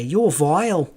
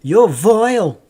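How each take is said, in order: First: A light Northern English "You're vile"; muted Northern English mimic. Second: Higher, louder, Northern English "You're vile"; mock Northern English scolding. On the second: Streamer imitating a Northern English relative. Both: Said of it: "especially when they say".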